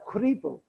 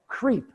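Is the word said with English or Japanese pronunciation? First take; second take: Japanese; English. First: It is said as three Japanese syllables. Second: It is said as one English syllable. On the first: "to pronounce it in Japanese, katakana" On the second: "The name of the creamer was Creep"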